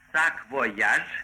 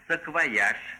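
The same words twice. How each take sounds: First: The unstressed vowel is a full, clear 'o'. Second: The unstressed vowel is reduced, Russian style. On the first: It sounds foreign. "так пишется. Если мы произнесем именно таким образом, будет произнесено по-иностранному" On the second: It sounds Russian. "А на русский лад будет"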